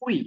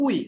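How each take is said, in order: First: উই with the first vowel held long before ই; drawn-out vowel. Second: উই said short, the two vowels run together quickly; short joined sound. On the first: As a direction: stretch the উ in উই. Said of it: "উচ্চারণটা হবে একটু টেনে". (উ একটু টেনে উই) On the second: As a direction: clip উই into one quick sound. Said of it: "শুধু উই, একসঙ্গে উচ্চারণ হবে". (উই ছোট করে একসঙ্গে) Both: Shown as a demonstration.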